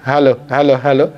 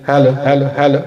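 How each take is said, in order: Both takes have the same delivery.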